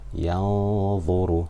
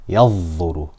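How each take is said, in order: First: The n sound is hidden in a nasal hum. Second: The n sound merges completely into the next sound. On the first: The speaker calls it right. "I'm making ghunna for two harakat" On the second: The speaker calls it wrong. "there I completely merged the noon into the dha"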